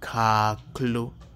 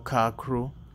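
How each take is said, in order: First: The consonant before the final vowel is l. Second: The consonant before the final vowel is r. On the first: The speaker calls it right. "say it with me" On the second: The speaker calls it wrong. "if you're one of those who call it kekro or kakro"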